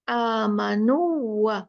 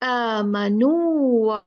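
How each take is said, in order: First: The long vowel is cut short and merged. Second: The long vowel is held for two counts. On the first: The speaker calls it wrong. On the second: The speaker calls it right.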